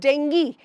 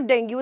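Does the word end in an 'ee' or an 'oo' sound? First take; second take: ee; oo. First: The word ends in an 'ee' sound. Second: The word ends in an 'oo' sound. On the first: The speaker calls it right. "It's डेंगी, the correct pronunciation" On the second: The speaker calls it wrong. "This is not डेंगू"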